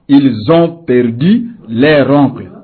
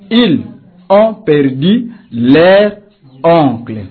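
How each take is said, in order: First: The words are joined with a liaison sound. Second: The words are said separately without a liaison. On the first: The speaker calls it right. "plutôt que nous dirons" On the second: The speaker calls it wrong. "Vous ne pouvez pas dire"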